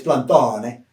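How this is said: The name is pronounced the Italian way. This is how people in Italy say it. "if you go to Italy, it's Plantone"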